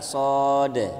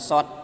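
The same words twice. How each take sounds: First: The word ends with a d sound. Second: The word ends with a t sound. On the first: The speaker calls it right. "tapi pakai dal" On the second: The speaker calls it wrong. "bukan sod pakai ta"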